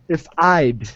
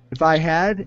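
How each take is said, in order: First: I had is contracted into one syllable. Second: I had is said as two full words.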